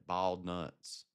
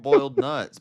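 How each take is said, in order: First: Boiled is said to sound like bald. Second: Boiled is said with its full oy vowel.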